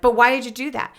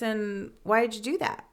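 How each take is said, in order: First: It sounds harsh and accusing. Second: It sounds gentle and calm.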